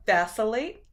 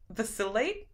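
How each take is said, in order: First: "Vacillate?" said VAS-uh-late with a questioning rise; trying a pronunciation. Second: "Vacillate?" said vuh-SIL-ate, softer, with a questioning rise; trying a pronunciation. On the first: Streamer unsure how to say a word. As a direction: test "Vacillate?" stressing the first syllable, vas. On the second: Streamer trying a second pronunciation. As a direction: test "Vacillate?" stressing the middle syllable, sil. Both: Shown as a demonstration. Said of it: "I don't even know if I pronounce that right".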